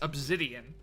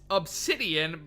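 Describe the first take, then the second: First: The middle consonant is a Z sound. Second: The middle consonant is an S sound. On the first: "I say it with a Z rather than an S" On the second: "it's pronounced obs obsidian"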